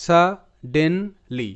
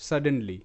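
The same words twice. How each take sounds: First: Suddenly drawn out syllable by syllable; teacher spelling out suddenly slowly; slow syllable breakdown. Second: Said in the usual way. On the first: Shown as a demonstration. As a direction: stretch suddenly slowly, part by part. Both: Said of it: "এটার উচ্চারণটা এভাবে আমি করব".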